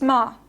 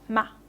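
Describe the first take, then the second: First: The vowel is a long open 'ah'. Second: The vowel is not a long open 'ah'. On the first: The speaker calls it right. "It's ma, right? It's uh, realized as the foreign um, value, the foreign free value" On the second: The speaker calls it wrong. "it's not ma"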